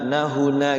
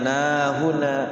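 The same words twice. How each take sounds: First: The final vowel is short, one beat. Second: The final vowel is drawn out long. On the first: The speaker calls it right. "satu ketukan, tek gitu kan, tek tek langsung masuk" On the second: The speaker calls it wrong. "jangan nahuna"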